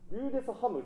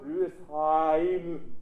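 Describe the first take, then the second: First: The ending is a flat 'ham' sound. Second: The ending is a full 'heim' diphthong. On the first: The speaker calls it wrong. "語尾の発音っていうのはリューデスハム、リューデスハムって聞くんです" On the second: The speaker calls it right. "リューデスハイムで、ここに音程をしっかり響きを乗せたい"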